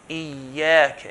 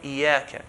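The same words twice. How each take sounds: First: The y sound is doubled and held. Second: The y sound is single and short. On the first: The speaker calls it right. "make sure the shadda is pronounced" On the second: The speaker calls it wrong. "and not"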